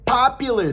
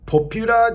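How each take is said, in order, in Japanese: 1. 英語のアクセントで言われています。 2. 日本語のアクセントで言われています。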